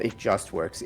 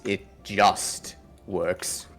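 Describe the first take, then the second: First: The stress falls on the word works. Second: The stress falls on the word just. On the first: It works without any trouble. The speaker calls it wrong. "It's not it just works" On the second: It only barely works. The speaker calls it right. "as in just barely works"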